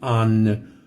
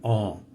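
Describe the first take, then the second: First: The word ends with a pronounced N consonant. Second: The word ends in a nasal vowel, no N. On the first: The speaker calls it wrong. "I'm not saying an" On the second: The speaker calls it right. "I'm saying oh"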